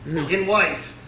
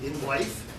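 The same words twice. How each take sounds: First: Wife landing with a firm falling tune; falling emphatic In wife; firm confirmation. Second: Wife rising like a disbelieving question; incredulous rising in wife?; puzzled question. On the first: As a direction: state it flatly as the punchline. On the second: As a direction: ask it as if you can't believe it. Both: Pretend. Repeating the shocking word.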